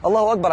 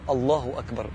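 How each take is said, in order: First: تكبيرة سريعة بصوت أعلى نبرة; quick, careless rattle-off, pitched higher; متسرع. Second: بإحساس. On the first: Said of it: "ما تقولهاش بسرعة كده". (قولها بسرعة كأنك بتخلص فرض) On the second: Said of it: "حس". (تكبيرة هادية على مهل، من القلب) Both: Shown as a demonstration.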